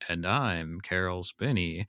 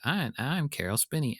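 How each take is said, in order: First: It sounds like a normal man's voice. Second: It sounds like Big Bird's voice.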